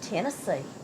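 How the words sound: It is said in a proud, pleased way. The speaker is proud of the place. "if you're being proud"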